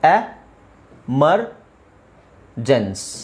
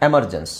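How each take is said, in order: First: Each syllable is said separately with small pauses. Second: The syllables are joined smoothly without pauses.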